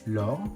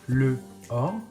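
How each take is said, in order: First: The article's vowel is dropped. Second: The article's vowel is kept separately. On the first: The speaker calls it right. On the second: The speaker calls it wrong.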